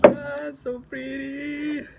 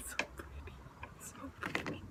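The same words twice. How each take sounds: First: Louder, slow gushing so pretty; slow loud awe; drawn-out delight. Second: Soft unvoiced whisper of delight; hushed so pretty; whispered awe. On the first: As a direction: swoon out loud over it. Loud slow delight over cards. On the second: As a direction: breathe it out in wonder. Whispered delight over cards. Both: Real, not acted.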